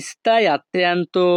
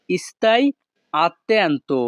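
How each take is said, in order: First: Slow, syllable by syllable "stai attento"; slow repeat. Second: Said in the usual way. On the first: Shown as a demonstration. Teacher repeating for students, slow and careful. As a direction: spell out "stai attento" slowly for learners.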